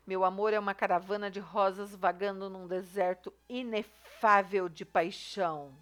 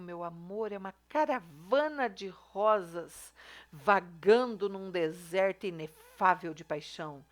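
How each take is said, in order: First: Said in the usual way. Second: Slow, drawn-out, over-the-top declamation of love; mock romantic recital. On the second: Shown as a demonstration. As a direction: ham up the flowery love line, slowly. (declamação romântica exagerada e lenta) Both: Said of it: "olha o exagero aqui".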